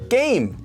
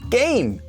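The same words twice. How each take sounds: First: The first consonant is a tense kk sound. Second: The same.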